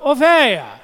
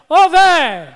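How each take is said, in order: First: It is said softly and tenderly. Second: It is said very loudly.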